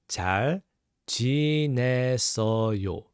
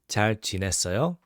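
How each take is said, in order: First: The phrase is said at a slow, careful pace. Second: The phrase is said at a quick pace.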